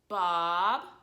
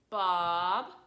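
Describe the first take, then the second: First: The pitch rises from low to high. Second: The pitch rises from low to high.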